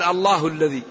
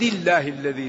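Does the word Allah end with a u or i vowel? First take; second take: u; i. First: Allah ends with a u vowel after a pause. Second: Allah ends with an i vowel, linked on. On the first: The name starts a new sentence as its subject. "إذا قال صراط العزيز الحميد رفع قال الله الذي" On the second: The name stands in apposition to the preceding phrase. "وإذا وصل قال العزيز الحميد الله الذي له"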